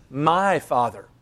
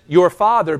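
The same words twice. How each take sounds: First: "My" lifted and stressed, "My father". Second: "father" said as Mary says it, plain stress on "Your father"; "Your father" in Mary's wording. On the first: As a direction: lean on "My" in "My father". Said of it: "but he says". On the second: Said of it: "she says". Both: Shown as a demonstration.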